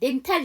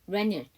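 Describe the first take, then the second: First: The t sound is clearly pronounced. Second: The t sound is dropped after the n. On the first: "그대로 노마자표 기대로 읽어서 렌탈이라고 하는데요" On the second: "아예 T 발음을 안 해. 그래서 N 발음을 그대로 넘길 거야"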